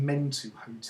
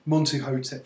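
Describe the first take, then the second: First: "Mentuhotep" opening on "men"; "Mentuhotep", first vowel e instead of o; Men- variant. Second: Said in the usual way. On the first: Shown as a demonstration. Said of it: "but you get some Mentuhotep". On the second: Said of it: "Montuhotep for me as well".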